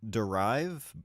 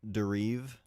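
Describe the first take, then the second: First: It is said with an English pronunciation. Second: It is said with a French pronunciation. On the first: "is how I would pronounce that in English" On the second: "maybe is that how they pronounce it?"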